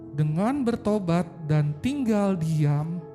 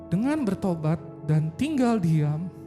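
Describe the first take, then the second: Both takes have the same delivery.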